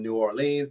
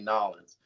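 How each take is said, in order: First: The name is said in full, with all syllables. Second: The name is squeezed into two short syllables.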